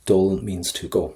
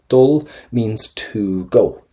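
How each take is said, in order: First: Said in the usual way. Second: "Dul means to go" said slowly with weight on "Dul"; slow and clear. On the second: Shown as a demonstration. Teacher stressing the Irish word for students, slow and clear. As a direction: lean on "Dul" and slow right down. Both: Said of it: "Let's go for the infinitive here".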